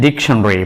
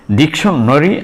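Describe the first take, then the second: First: "dictionary" shortened to end in "-shunry"; "dictionary" with the vowel before "ry" dropped; reduced-vowel pronunciation. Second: "Dictionary" with the ending sounded out as "-nary"; "Dictionary" with a full vowel before the final "ry"; full-vowel pronunciation. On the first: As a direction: say "dictionary" in three syllables, dic-shun-ry. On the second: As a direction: say "Dictionary" in four syllables, dic-shun-na-ry. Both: Shown as a demonstration. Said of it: "both pronunciation are possible".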